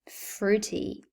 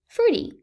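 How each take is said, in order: First: The middle t is a crisp, fully released t. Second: The middle t sounds like a soft, subtle d. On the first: The speaker calls it wrong. "do you wish to sound like a robot?" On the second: The speaker calls it right. "Notice how it becomes a very subtle D"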